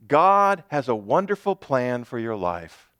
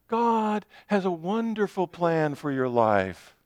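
First: It is said in a plain, ordinary tone. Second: It is said in a sugary, greeting-card tone.

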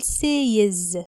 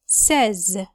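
First: The vowel sounds like the one in 'say'. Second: The vowel sounds like the one in 'set'. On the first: The speaker calls it wrong. "مش هينفع نقول says" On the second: The speaker calls it right. "عايزين نقول says"

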